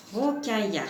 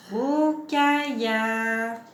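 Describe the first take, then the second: First: Said in the usual way. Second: "Rokaya" drawn out syllable by syllable; syllabes étirées. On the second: Shown as a demonstration. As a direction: hold each of the three syllables in "Rokaya". (« Rokaya » en étirant chaque syllabe) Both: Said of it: "intéressons-nous à la syllabe ro".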